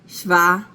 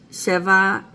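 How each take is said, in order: First: The first vowel is reduced to a schwa. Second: The first vowel is a full vowel. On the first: This is the shortened form used with hundreds. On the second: This is the normal form of the number.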